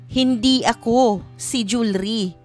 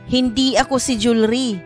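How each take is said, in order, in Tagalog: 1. May hinto kaagad pagkatapos ng ikalawang salita. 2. May hinto lamang sa pinakadulo. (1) "Pagbigkas ito na ang hinto ay nasa ako" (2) "Pagbigkas ito na nasa hulihan ang hinto"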